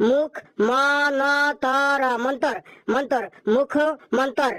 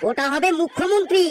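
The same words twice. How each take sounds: First: মুখ মন্তর said slowly with মন্ত্র cluster dropped; mispronounced মুখমন্তর. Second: মুখ্যমন্ত্রী said clearly with doubled খ and full ন্ত্র; teacher models মুখ্যমন্ত্রী correctly; correct pronunciation. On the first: Acted. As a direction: stumble over মুখ মন্তর. (মুখ্যমন্ত্রীকে ভুল করে মুখমন্তর বলা) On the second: Shown as a demonstration. (শুদ্ধ উচ্চারণে মুখ্যমন্ত্রী) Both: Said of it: "ওটা মুখমন্তর না".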